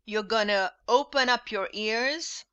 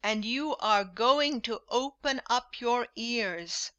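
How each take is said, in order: First: "gonna" reduced to a quick "gunna"; casual contracted "gonna"; informal gonna. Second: "you are going to" with no contractions; each word given in full, formally; formal full forms. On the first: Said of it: "repeat this informal English". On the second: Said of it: "formal English with full forms". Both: Shown as a demonstration.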